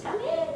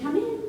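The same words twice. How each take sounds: First: Very high falsetto call; squeaky-high imitation of grandmother; wolf posing as grandmother. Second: High-pitched call to the door; grandmother's high little invitation. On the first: Wolf in grandmother's bed answers a knock, falsetto call. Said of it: "the wolf says". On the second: Acted. Grandmother answers a knock, high old-lady call. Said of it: "And she said".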